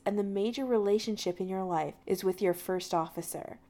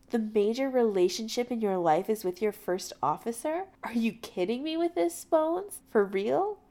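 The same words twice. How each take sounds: First: Said in the usual way. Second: Incredulous echo. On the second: A narrator's reading. Jim throwing McCoy's argument back at him, incredulous. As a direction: repeat it back as if absurd.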